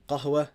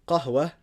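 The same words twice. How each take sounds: No difference in how they are said.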